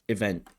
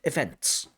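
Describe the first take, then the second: First: The final consonants are dropped after the vowel. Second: The final n, t and s are all pronounced. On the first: The speaker calls it wrong. "the word events comes out like event" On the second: The speaker calls it right. "for some speakers of English, that's absolutely fine"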